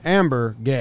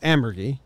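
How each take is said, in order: First: The name is split into separate rhythmic beats. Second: The name runs together as one smooth word. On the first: This is one announcer's personal version. "it's one, like, rhythmic" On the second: This is the correct pronunciation. "says it right"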